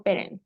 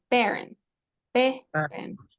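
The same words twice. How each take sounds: First: Parent with a Spanish A, pa-rent; wrong pronunciation. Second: Parent said English-style as peh-rent; correct pronunciation. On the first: Teacher shows the wrong way to say parent. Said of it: "No digo parent". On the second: Teacher models the right parents for the student. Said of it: "Va a sonar parents". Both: Shown as a demonstration.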